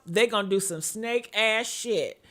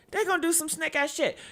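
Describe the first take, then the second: First: Said in the usual way. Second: "They gonna do some snake ass shit" repeated higher and fast with heat; pitched-up, faster repeat of "snake ass shit"; emphatic repeat. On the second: Shown as a demonstration. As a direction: hammer the line home a second time. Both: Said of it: "repeat for emphasis".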